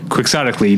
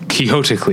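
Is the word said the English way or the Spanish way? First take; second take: English; Spanish. First: It is pronounced the English way, with a hard x. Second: It is pronounced the Spanish way, like Quijote. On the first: The word is treated as an English word. The speaker calls it right. "because it's an English word, you say quixotically" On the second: The word is treated as a Spanish name. The speaker calls it wrong. "not quixotically"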